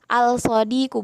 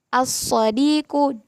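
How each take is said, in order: First: The L is pronounced clearly before the S. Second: The L merges into a doubled S sound. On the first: The speaker calls it wrong. "bukan, nggak bisa" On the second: The speaker calls it right. "As-sadiqu bukan al-sadiqu"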